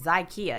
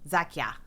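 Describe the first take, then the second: First: It sounds like IKEA with a Z. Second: It does not sound like IKEA with Z. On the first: The speaker calls it right. "I'll never mess it up again" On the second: The speaker calls it wrong. "no, that's not right"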